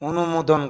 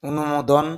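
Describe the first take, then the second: No difference in how they are said.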